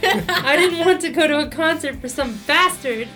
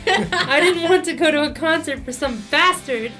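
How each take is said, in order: First: It is spoken in a put-on Australian accent. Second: The same.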